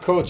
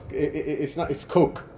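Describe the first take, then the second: First: The name ends with a ch sound. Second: The name ends with a k sound. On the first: The speaker calls it wrong. "It's not coach" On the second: The speaker calls it right. "but it's pronounced coke"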